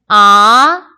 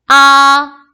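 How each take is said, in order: First: The pitch rises from middle to high. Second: The pitch stays high and level. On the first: "이" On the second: "일성일 경우"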